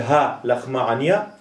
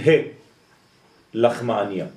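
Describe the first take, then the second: First: The first word sounds like the plain syllable ha. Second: The first word sounds like the letter name hei. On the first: This is the ordinary way of saying the phrase. "במקום להגיד" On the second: The phrase is aimed at the letter itself. "הם אומרים ה לחמעניה. כלומר, כדי לכוון על ה הזאת, ה א'"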